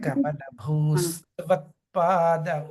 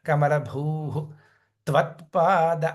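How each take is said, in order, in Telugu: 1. పదాలు విరామం లేకుండా కలిసి పలుకుతాయి. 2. కమలభూ తర్వాత ఊపిరి తీసుకోవడానికి విరామం ఉంది. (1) "లేదు అంటే" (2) "గాలి తీసుకోవడానికి అవకాశం కావాలి అనుకుంటే"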